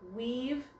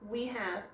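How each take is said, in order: First: The words are squeezed into one short syllable. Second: The two words are said fully and separately.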